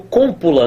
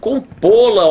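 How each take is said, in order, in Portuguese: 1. A sílaba tônica está na primeira. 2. A sílaba tônica está na segunda. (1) "Cômpula não dá nem para falar direito" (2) "É uma oxítona terminada em O"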